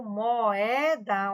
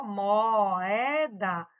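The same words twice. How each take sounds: First: Said in the usual way. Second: "moeda" very slow, split as "mo-e-da"; "moeda" pulled apart into three slow syllables. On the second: Shown as a demonstration. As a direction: stretch "moeda" so each syllable stands apart. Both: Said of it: "ó, moeda".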